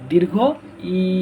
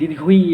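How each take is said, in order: First: The final vowel is drawn out and lengthened. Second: The final vowel is short and not drawn out. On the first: The speaker calls it right. "এটা একটু টান হবে দীর্ঘ ই, এরকম ভাবে টান হবে" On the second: The speaker calls it wrong. "এটাকে আমরা বলে থাকি দীর্ঘই"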